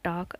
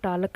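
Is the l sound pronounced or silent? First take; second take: silent; pronounced. First: No l sound is heard before the k. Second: An l sound is heard before the k. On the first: The speaker calls it right. "एल silent हो गया" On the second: The speaker calls it wrong. "टालक नहीं बोलते हैं"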